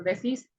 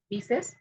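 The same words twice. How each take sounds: First: Decís drawn out, stressed on the final CÍS; slow, demonstrative decís with final stress; stress on last syllable. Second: Said in the usual way. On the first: Shown as a demonstration. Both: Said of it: "es diferente la inversión de las vocales".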